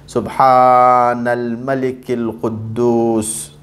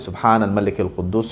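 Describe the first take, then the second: First: The voice is raised and drawn out. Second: It is said in a normal, plain voice.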